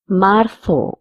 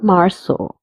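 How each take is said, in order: First: The z is said like English th. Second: The z is said like English s. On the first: "Z is pronounced as th" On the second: "or s"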